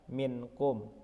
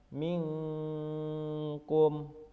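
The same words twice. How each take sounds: First: The n is pronounced as a clear n. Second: The n blurs into a nasal ng sound. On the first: The speaker calls it wrong. "bukan dibaca minkum" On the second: The speaker calls it right. "Contohnya seperti lafal minkum"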